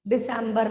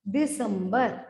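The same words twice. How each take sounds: First: दिसंबर said with English "sem" in the middle; English-style December. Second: दिसंबर as "di-sum-bar"; short uh vowel, "sum", in the middle of दिसंबर; Hindi pronunciation. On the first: Teacher showing the wrong month name, English-sounding दिसंबर. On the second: Teacher correcting to the Hindi month, careful Hindi दिसंबर. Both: Shown as a demonstration. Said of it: "दिसंबर नहीं".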